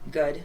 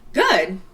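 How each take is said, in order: First: It sounds flat, politely unenthusiastic. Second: It sounds cheerful and genuinely happy.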